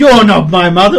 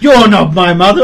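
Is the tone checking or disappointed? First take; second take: checking; checking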